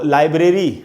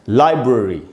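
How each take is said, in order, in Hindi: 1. ज़ोर पहले अक्षर पर नहीं है। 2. ज़ोर पहले अक्षर पर है। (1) "इसको हमको लाइब्रेरी नहीं बोलना चाहिए" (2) "ला में जो आ है ... वहीं पर स्ट्रेस है"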